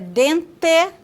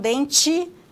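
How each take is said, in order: First: The final syllable is said like 'teh'. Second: The final syllable is said like 'chee'. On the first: This is how it is said in the far south. "dente e não dente" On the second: This is how it is said in northern Paraná. "e não dente"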